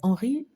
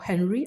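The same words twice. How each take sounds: First: The name has a French pronunciation. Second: The name has an English pronunciation.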